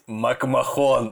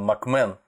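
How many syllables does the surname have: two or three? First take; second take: three; two. First: The surname is said with three syllables. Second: The surname is said with two syllables. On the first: This is how it was first heard from a TV host. "я буду говорить так, как я услышал это от первоисточника" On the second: This is the correct pronunciation. "Кстати, он МакМэн"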